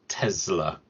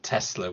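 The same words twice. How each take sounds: First: The middle consonant is a z sound. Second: The middle consonant is an s sound. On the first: The speaker calls it right. "it is pronounced Tesla with a with the Z" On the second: The speaker calls it wrong. "not Tesla with the S"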